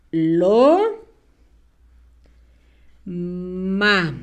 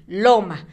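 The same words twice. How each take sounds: First: Drawn-out rising "Lo", long pause, low level "ma"; syllable by syllable. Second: Said in the usual way. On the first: Shown as a demonstration. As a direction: dictate "Lo" and "ma" as separate syllables. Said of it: "Vamos a escribirlas". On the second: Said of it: "la palabra loma".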